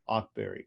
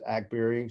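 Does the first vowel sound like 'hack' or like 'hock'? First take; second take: hock; hack. First: The first vowel sounds like the vowel in hock. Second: The first vowel sounds like the vowel in hack. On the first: The speaker calls it wrong. "people continue to pronounce it Ockberry, but it's not" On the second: The speaker calls it right. "she does pronounce it Ackberry. She tells everybody it's like Hackberry"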